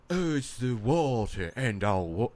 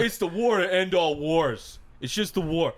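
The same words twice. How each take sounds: First: Slow, lofty mock soldier line; lightly hammed grand pronouncement, slow; slow mock-poetic soldier, not yet British. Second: Mock British accent. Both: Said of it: "Oh, no, he wasn't British".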